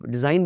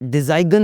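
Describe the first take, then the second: First: The g sound is left out. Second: A g sound is pronounced. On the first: The speaker calls it right. "डिजाइन बोलते हैं जी" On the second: The speaker calls it wrong. "डिजाइगन नहीं बोलते आप"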